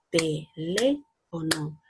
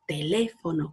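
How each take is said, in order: First: Very slow, "Teléfono" split into te-lé-fo-no, one clap per syllable; clapped out slowly. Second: Said in the usual way. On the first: Shown as a demonstration. Teacher claps out "Teléfono" for the children, very slowly. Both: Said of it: "Pal-, palmaditas".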